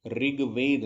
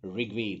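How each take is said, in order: First: ऋग्वेद with a plain "rig"; light untrilled r in ऋग्वेद; wrong "रि" pronunciation. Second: ऋग्वेद with a vibrating r; tongue pulled back on the ऋ of ऋग्वेद; correct ऋ pronunciation. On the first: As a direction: say ऋग्वेद as "rig-ved", clear i. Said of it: "ऋग्वेद नहीं होता है". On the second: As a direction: say ऋग्वेद as "rrg-ved". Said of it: "ऋग्वेद होता है". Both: Shown as a demonstration.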